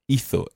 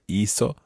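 First: The z sounds like English th. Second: The z sounds like English s.

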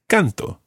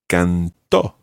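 First: The stress is on the first syllable. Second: The stress is on the last syllable. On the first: I sing now. "Listen to the stress. I sing in the present tense is canto" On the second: Someone else sang in the past. "to say he or she or it sang, you would say cantó"

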